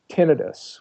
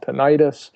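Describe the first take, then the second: First: It is pronounced the technical, medical way. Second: It is pronounced the everyday, lay way. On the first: "which is a technical term" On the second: "what lay people call"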